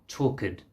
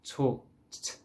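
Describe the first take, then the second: First: The ending adds an extra vowel sound. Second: The ending is a plain unvoiced t sound. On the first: The speaker calls it wrong. "You don't need to add an extra sound" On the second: The speaker calls it right. "So you say talked"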